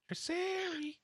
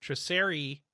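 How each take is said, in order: First: Triceri squeaked high and soft; high squeaky voice. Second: Said in the usual way. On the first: Shown as a demonstration. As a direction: say Triceri like a tiny creature. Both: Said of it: "It's a Pokemon".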